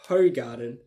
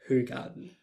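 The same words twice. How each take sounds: First: It is said as its English spelling suggests. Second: It is said with its native Belgian Dutch sounds. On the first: The speaker calls it wrong. "it's not pronounced Hogarden" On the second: The speaker calls it right. "It's actually pronounced Hogarden"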